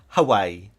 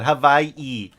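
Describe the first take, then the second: First: The middle consonant is a W sound. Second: The middle consonant is a V sound. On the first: The speaker calls it wrong. "Hawaii is not pronounced Hawaii" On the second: The speaker calls it right. "all the W's in in Hawaii are pronounced as V's"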